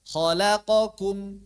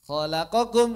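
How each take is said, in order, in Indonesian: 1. Setiap suku kata dibaca dengan durasi yang sama dan singkat. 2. Setiap suku kata dibaca lebih cepat dari biasanya. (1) "semuanya sama satu harakat" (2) "lebih cepat"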